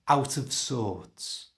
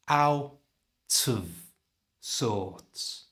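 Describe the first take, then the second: First: The phrase is said at normal speed. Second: The phrase is said slowly. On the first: "And at normal speed" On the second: "So slowly it's"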